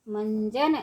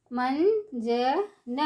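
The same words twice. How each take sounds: First: Said in the usual way. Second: मंजन stretched slowly, syllable by syllable; slow syllable drill. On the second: Shown as a demonstration. Teacher drawing out मंजन slowly for children. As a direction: draw out मंजन for the class. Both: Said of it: "ऊंची आवाज़ में कैसे पढ़ेंगे".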